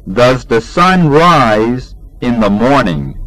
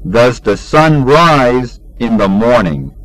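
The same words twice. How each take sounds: The two takes are said the same way.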